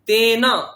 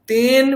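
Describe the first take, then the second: First: The word ends on a vowel after n. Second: The word ends on the consonant n. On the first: The speaker calls it right. "বলতে হবে তেনা" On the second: The speaker calls it wrong. "তেন বলবেন না"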